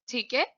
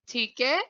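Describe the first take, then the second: No difference in how they are said.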